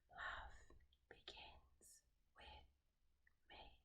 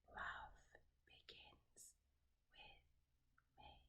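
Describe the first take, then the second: Both takes have the same delivery.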